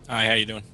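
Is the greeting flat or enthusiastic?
flat. The greeting sounds flat and unenthusiastic.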